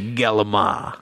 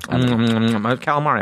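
First: Said in a clipped, Italian-style pronunciation. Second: Said in a plain, full English pronunciation.

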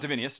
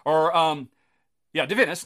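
First: The word ends in a 'nee-us' sound. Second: The word ends in a plain 'nus' sound. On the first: The speaker calls it wrong. "not Divinius" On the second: The speaker calls it right.

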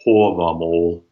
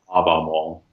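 First: The first vowel is rounded, like 'aw'. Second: The first vowel is unrounded, like 'ah'. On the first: The speaker calls it right. "the long A is rounded, hence why I say Havamal" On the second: The speaker calls it wrong. "not Havamal"

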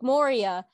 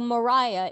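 First: The name uses the fantasy-novel pronunciation. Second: The name uses the biblical pronunciation.

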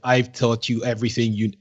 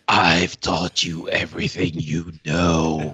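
First: It is said in his ordinary speaking voice. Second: It is said in a put-on Reaper voice.

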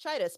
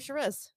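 First: The surname has its original Spanish pronunciation. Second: The surname has an anglicized, European-sounding pronunciation. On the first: This is the family name's original form. "and so it's Chitus" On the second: This form was adopted to sound less Hispanic. "to sound less Hispanic"

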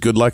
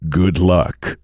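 First: It is said in an ordinary speaking voice. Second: It is said in a deep movie trailer voice.

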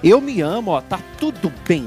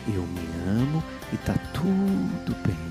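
First: It is said strongly and forcefully. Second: It is said softly and romantically.

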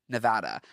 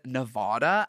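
First: The middle vowel sounds like the one in cat. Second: The middle vowel sounds like the one in father. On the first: The speaker calls it right. "the state is named Nevada" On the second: The speaker calls it wrong. "I said Nevada as if I'm British or as if I have some sort of bizarre ass accent"

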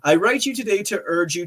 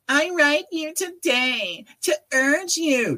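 First: It is read in his normal voice. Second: It is read imitating her voice.

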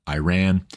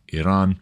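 First: Iran is pronounced the Americanized way. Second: Iran is pronounced the non-Americanized way. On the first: Americans should say it this way. "He thinks we need to say it Iran because we're Americans" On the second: It is more fun to say it this way. "I'm going to say Iran because it sounds better"

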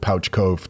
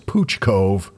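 First: The first word has an 'ow' vowel. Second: The first word has an 'oo' vowel. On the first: The speaker calls it wrong. "I called it Pouch Cove too" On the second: The speaker calls it right. "says it's Pooch Cove"

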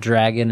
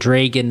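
First: The vowel is said in the ordinary way. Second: The vowel is said in an imitated, unusual way. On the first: This is the usual way to say it. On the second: This is how someone else sang it.

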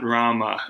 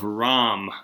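First: The name ends with a final a vowel. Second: The name ends on the m sound. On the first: This follows a non-Hindi form of the name. The speaker calls it wrong. "not Rama" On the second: This follows the Hindi form of the name. The speaker calls it right. "we're using the Hindi pronunciation"

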